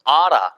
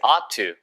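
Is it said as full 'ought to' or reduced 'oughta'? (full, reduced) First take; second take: reduced; full. First: The words run together quickly as oughta. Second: Both words are said fully and separately.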